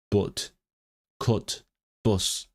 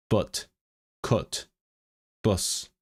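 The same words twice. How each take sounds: First: "but, cut, bus" said with a short Northern English u; non-posh Northern English u in "but, cut, bus"; non-posh Northern English accent. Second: "but, cut, bus" said with a soft schwa, posh Northern English; posh Northern English accent. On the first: Showing non-posh Northern English vowels to viewers. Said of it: "non-posh Northern English would be more like". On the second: Showing posh Northern English vowels, a quiet demo. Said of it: "they use the schwa". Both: Shown as a demonstration.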